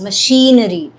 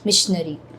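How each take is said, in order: First: It sounds like machinery, with a stressed 'she' sound. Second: It sounds like the word missionary. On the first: The speaker calls it right. "The stress is on the she sound" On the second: The speaker calls it wrong. "You said missionary"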